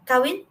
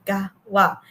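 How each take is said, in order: First: Said in the usual way. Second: "gawa" with g for k and final n dropped; imitating mispronunciation. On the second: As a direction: mimic a blurred "gawa". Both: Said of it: "akan menjadi".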